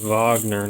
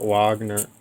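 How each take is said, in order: First: The name begins with a V sound. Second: The name begins with a W sound. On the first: The speaker calls it right. "his name is starts with a W, but he's German, so it's Wagner" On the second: The speaker calls it wrong. "not Wagner"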